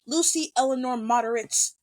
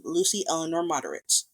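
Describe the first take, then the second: First: Retold heartfelt line, a little higher; full of sincerity. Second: Said in the usual way. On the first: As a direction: quote it as his earnest recognition of her. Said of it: "full of sincerity". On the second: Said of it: "she says her full name".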